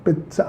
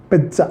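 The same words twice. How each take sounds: First: पिज्जा said with a clear ts sound, pits-a; पिज्जा as pits-a, quiet and short; correct pizza. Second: पिज्जा said the common Indian way, with a soft j; पिज्जा with a plain j sound; wrong pizza. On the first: Teacher models the right पिज्जा for students, with ts. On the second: Teacher shows students the mistaken पिज्जा, soft j. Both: Shown as a demonstration. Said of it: "पिज्जा नहीं, पिज्जा".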